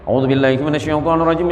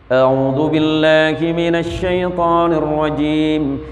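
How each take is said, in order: First: It is recited quickly. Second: It is recited at a moderate pace. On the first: "Ada yang terakhir hadar" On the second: "Agak cepat sedikit"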